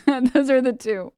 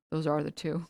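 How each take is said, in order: First: Louder, higher, slower, leaning on are; amused louder echo with are held; laughing repeat. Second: Said in the usual way. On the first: Shown as a demonstration.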